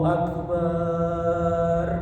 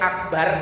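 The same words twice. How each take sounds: First: The vowel in the last syllable is long. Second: The vowel in the last syllable is short. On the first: It turns into a crude, insulting meaning. The speaker calls it wrong. "Itu kalau baknya dibaca panjang" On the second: It means the greatest. The speaker calls it right. "Kalau dibaca pendek"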